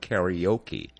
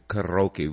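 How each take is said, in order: First: The word has an Americanized pronunciation. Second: The word has its original, non-American pronunciation. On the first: "We have Americanized it, and we call it karaoke" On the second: "That's the proper enunciation"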